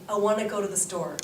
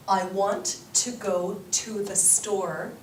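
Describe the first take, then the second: First: Fast, linked: "want to" blurred to "wanna", "the store" run together; Canadian reduced speech. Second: Slow, every word clear: "I want to go to the store"; careful full pronunciation. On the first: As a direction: rush "I want to go to the store" with reduced little words. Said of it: "I'd say". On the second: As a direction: spell out "want to" and "go to" fully and slowly. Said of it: "Canadians do not pronounce it that way". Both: Shown as a demonstration.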